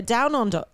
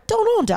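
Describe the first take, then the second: First: Said in the usual way. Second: High, loose attempt at an Australian accent. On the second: Shown as a demonstration. Host trying out where the sister moved, playful Australian accent. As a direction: pitch it way up in mock Australian. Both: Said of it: "that accent".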